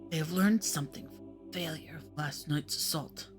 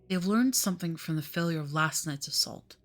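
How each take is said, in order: First: It is read in a put-on character accent. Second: It is read in the reader's plain voice.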